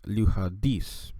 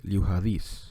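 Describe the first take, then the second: First: The D is pronounced as a hard stop. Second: The D is pronounced as a softened sound. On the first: The speaker calls it wrong. "instead of saying liuhadis" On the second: The speaker calls it right. "it's going to become more uh, softened"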